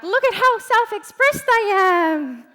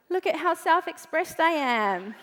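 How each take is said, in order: First: Higher, louder show-off voice; showy boast. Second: Said in the usual way. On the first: Retold or imitated. Posting in Facebook challenge groups, loud showy boast. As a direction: brag to the whole group. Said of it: "and you're like". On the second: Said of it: "personal profile and you're like".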